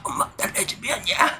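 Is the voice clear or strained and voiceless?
strained. The voice is strained and barely comes out. "목소리가 안 나오니까"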